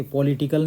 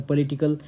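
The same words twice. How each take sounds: First: पॉलिटिकल with a closed o, marked wrong. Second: पॉलिटिकल with an open aw sound; correct pronunciation. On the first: Teacher showing the wrong o sound. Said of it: "ओ नहीं होता". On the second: Teacher modelling the right vowel. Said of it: "अ होता है". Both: Shown as a demonstration.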